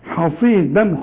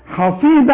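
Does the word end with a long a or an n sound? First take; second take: n sound; long a. First: The word ends with an n sound. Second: The word ends on a long a vowel. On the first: The reader continues into the next word. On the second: The reader stops on this word.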